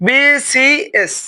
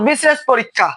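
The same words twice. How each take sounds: First: বিসিএস very slowly, each letter name held apart; বিসিএস as three slow, separate syllables bi, si, es; slow sounding out. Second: Said in the usual way. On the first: Shown as a demonstration. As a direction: spell out বিসিএস letter by letter, stretched. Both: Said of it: "বিসিএস উচ্চারণ করতে".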